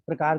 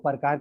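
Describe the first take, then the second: First: The p joins the r with no vowel. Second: A full vowel is said between p and r. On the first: The speaker calls it right. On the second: The speaker calls it wrong.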